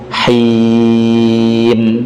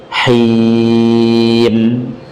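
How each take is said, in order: Both takes have the same delivery.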